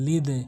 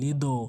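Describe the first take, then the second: First: The final d is released with an 'e' sound. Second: The final d is released with an 'o' sound. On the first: The speaker calls it right. "বলতে হবে লিদে" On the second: The speaker calls it wrong. "অনেকেই ভুল করে বলি লিদো"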